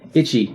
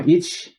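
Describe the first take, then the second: First: The word ends with a clear final vowel. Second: The word ends without a final vowel. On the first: The speaker calls it wrong. "And it's wrong" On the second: The speaker calls it right. "It's ich"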